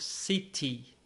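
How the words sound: It is said in a British accent. "Em inglês britânico"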